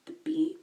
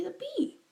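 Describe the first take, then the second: First: "The bee" repeated in a bare whisper; unvoiced echo of "The bee"; whispered quote. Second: Said in the usual way. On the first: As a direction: hiss out "The bee" as the insult she used. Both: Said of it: "this woman calls me the bee".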